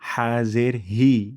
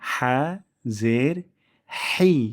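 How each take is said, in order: First: The h is light, with little throat air. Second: The h is breathy, with air from the throat. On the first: The speaker calls it wrong. "যেন এমন না হয় হা জের হি" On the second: The speaker calls it right. "গলার মাঝখান থেকে বাতাস বেশি বের হবে"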